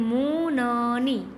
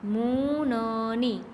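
No difference in how they are said.

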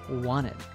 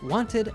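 First: The middle T sound is dropped. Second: The middle T sound is pronounced. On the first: "drop the letter T in wanted" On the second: "Instead of wanted"

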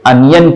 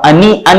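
First: The middle is a quick y glide. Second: The middle is a separate full ee vowel. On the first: The speaker calls it right. "अनियन कहते हैं" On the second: The speaker calls it wrong. "आप अनी अन नहीं कहते उसे"

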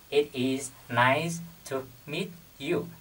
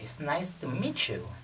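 First: The melody is flat and robotic, word by word. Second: The melody rises and falls smoothly, like a song. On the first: The speaker calls it wrong. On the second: The speaker calls it right.

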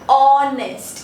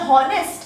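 First: The word begins directly with a vowel sound. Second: The word begins with an audible h sound.

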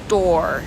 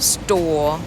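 First: The vowel is followed by an r sound. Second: The vowel is long, with no r sound. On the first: "American, ก็จะเป็น, or, แล้วมีตัว, r" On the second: "British, นะคะจะคล้ายกับสระโอมากเลยนะคะ"

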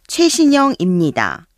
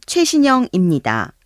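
No difference in how they are said.

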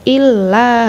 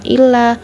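First: The double l is pressed and held long. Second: The double l is short and not pressed. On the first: The speaker calls it right. "Illa harus ada penekanan" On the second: The speaker calls it wrong. "jangan cuma illa"

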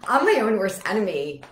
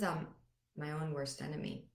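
First: It is said in a light, joking tone. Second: It is said in a serious, sad tone. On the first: The speaker brushes it off as unimportant. "very different than if I'm just like joking, you know, like" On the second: The speaker truly means it and feels its weight. "If I changed the tone and I looked straight at you and I said, ... that would feel sad, really sad"

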